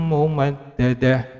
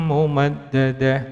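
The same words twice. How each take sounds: Both takes have the same delivery.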